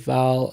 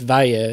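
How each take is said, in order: First: The word ends on an L sound. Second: The word ends on a vowel sound. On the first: The speaker calls it wrong. "I just say Val because I'm a lazy Australian" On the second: The speaker calls it right. "it's Vaya is how you say that"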